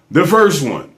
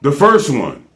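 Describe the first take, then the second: No difference in how they are said.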